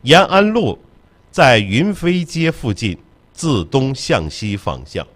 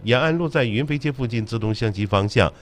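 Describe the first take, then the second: First: It is said slowly and deliberately. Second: It is said at normal, quicker speed.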